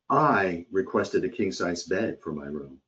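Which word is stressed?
I. The word "I" carries the strongest stress. Someone else got what was asked for instead. "This sounds as if the customer is upset that she did not receive a king-size bed and another customer did"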